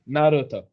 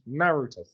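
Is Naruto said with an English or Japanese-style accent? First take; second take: Japanese-style; English. First: It is said with a Japanese-style accent. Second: It is said with a plain English accent. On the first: The speaker is putting on a foreign pronunciation. The speaker calls it wrong. "someone goes, ah" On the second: The speaker is using an ordinary local pronunciation. The speaker calls it right. "just Naruto"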